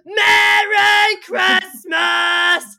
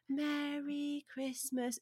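First: It is said loudly, like a foghorn. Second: It is said quietly and plainly.

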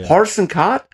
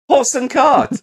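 First: It sounds puzzled, like an unsure question. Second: It sounds like sudden, pleased understanding. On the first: The listener still does not understand the words. "And he's going" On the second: The listener has finally understood the words. "And then he gets it"

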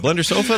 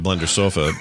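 First: It is said as a rising question. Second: It is said as a flat statement.

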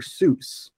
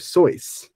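First: The vowel in the name sounds like 'oo'. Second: The vowel in the name sounds like 'oy'. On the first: This is the familiar way the name is said. "his name is not Dr. Seuss" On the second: This is claimed to be the original way the name is said. "or Soyce, if that's how you want to pronounce it"

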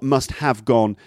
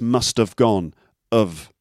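First: The word have is pronounced fully and clearly. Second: The word have is squashed into a weak of. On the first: The speaker calls it wrong. "It's not must have gone" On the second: The speaker calls it right. "it's must have gone of"

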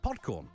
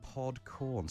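First: It is said at normal speed. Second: It is said slowly.

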